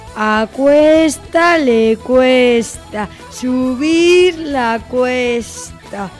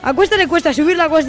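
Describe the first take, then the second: First: The sentence is spoken at a slow pace. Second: The sentence is spoken at a fast pace. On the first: "Vamos con la velocidad lenta" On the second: "Y ahora vamos con velocidad rápida"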